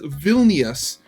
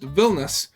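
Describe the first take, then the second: First: It is pronounced the way English speakers say it. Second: It is pronounced the way Lithuanians say it. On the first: The speaker calls it wrong. "purely English speakers pronounce the capital ci- city as" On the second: The speaker calls it right. "instead of just"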